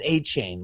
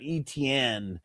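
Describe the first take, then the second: First: The name begins with an 'ay' sound. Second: The name begins with an 'ee' sound. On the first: The speaker calls it right. "that it's A chain" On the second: The speaker calls it wrong. "it's not E T N"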